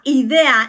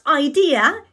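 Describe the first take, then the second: First: The word is pronounced with Spanish sounds. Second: The word is pronounced with English-like sounds. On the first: The speaker calls it right. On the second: The speaker calls it wrong.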